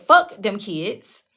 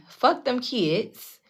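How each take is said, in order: First: Put-on "Fuck them kids" dragged out slowly, FUCK hit hard; slow, deliberate repeat of "Fuck them kids"; slow stressed quote. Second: Put-on "Fuck them kids" drawn out very slowly and quietly; a very slow, hushed repeat of "Fuck them kids"; slower, softer repeat. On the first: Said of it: "Literally said".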